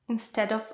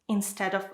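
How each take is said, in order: Both takes have the same delivery.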